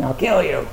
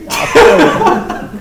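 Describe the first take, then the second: First: Said in the usual way. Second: Much higher, much louder, slow squeal of "I'll kill you" breaking into a laugh. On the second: Pretend. Teacher repeating the bird's threat, laughing high squeal.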